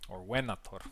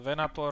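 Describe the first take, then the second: First: It is said with a classical Latin pronunciation. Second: It is said with a common, non-classical pronunciation. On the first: "if we want to go into classical Latin" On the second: "if we're pronouncing it right"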